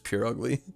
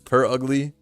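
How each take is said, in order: First: The first syllable sounds like 'pure'. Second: The first syllable sounds like a cat's 'purr'. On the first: "I deadass thought the way you pronounce this is pure ugly" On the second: "if the anime says per ugly, I know it's per like a cat"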